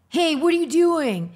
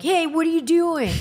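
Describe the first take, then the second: First: Put-on high, loud kid-boy line; boy's voice. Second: Put-on high, loud copy of a boy's voice; imitating that boy. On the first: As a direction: toss it off like a young boy. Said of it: "someone say something like". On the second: Shown as a demonstration. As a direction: nail the boy's voice exactly. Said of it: "I could do it exactly like that".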